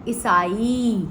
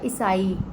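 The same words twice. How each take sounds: First: The final vowel is long. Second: The final vowel is short. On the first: The speaker calls it right. "लास्ट वाले जो एंड में जो है ई, वो long sound है" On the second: The speaker calls it wrong. "दोनों ई जो है वो आपको छोटा ही साउंड लग रहा है"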